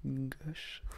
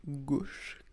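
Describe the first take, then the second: First: "gauche" with an open O, like "gosh"; short open vowel in "gauche"; accented open-O "gauche"; own accent. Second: "gauche" with a closed O, like "gohsh"; careful closed-vowel "gauche"; standard closed O. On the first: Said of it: "Moi, je dis à gauche". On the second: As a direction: round and lengthen the vowel in "gauche". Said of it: "c'est le clou que j'ai un problème". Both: Shown as a demonstration.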